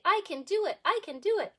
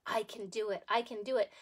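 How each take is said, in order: First: Put-on higher, louder chant for the kids; chanted, lead the class in a cheer. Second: Said in the usual way. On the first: Shown as a demonstration. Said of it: "Can you guys say".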